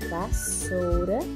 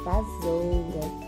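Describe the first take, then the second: First: The middle consonant is a hissing s sound. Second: The middle consonant is a buzzing z sound. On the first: The speaker calls it right. "para que esta palavra continue com o som de S" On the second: The speaker calls it wrong. "se você colocar um S só, não ficará vassoura, ficará vasoura"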